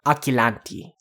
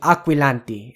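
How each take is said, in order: First: The 'qu' is said with a plain 'k' sound. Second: The 'qu' is said with a 'kw' sound. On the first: The speaker calls it wrong. "and not aquilanti" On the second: The speaker calls it right. "So it's actually aquilanti"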